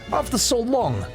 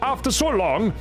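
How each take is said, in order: First: It is spoken with a Russian accent. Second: It is spoken with a Swedish accent. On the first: "I'll try a bad Russian" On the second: "My Swedish is just gonna sound like"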